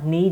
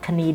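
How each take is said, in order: First: No k sound is heard before the n. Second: A k sound is heard before the n. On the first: The speaker calls it right. "ตัว K จะไม่ออกเสียงนะครับ ... ให้อ่านว่า" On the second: The speaker calls it wrong. "ดังนั้นเราจะไม่อ่านว่า"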